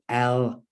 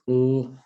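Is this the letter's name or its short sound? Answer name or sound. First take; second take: name; sound. First: The full letter name with a vowel before it. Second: A short consonant sound without a vowel. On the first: The speaker calls it wrong. "if they learn the letter name L, and they go L" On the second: The speaker calls it right. "There's three sounds in there"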